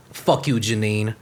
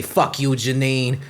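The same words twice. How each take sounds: First: Said in the usual way. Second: Slow deliberate retort. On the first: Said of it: "first take". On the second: Retold or imitated. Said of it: "I say".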